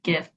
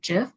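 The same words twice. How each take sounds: First: It starts with a hard G sound. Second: It starts with a J sound. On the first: "originally I thought it was pronounced GIF because obviously you um the traditional G sa- has a G sound" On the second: "pronouncing it with the J sound, like GIF"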